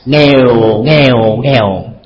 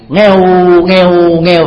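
First: The words are said on a low falling tone. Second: The words are said on a level tone. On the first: It means poor. "thanh sắc bằng trở thành huyền" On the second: It is a cat's meow. "Con mèo thường nó có tiếng kêu như thế này"

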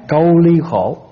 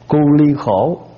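First: The first syllable has the gliding vowel 'âu'. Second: The first syllable has the plain vowel 'u'.

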